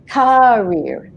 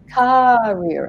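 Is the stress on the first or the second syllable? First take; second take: first; first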